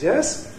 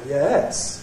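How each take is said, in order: First: The pitch rises from a high point. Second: The pitch rises, then falls. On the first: "High rise" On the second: "Rise fall"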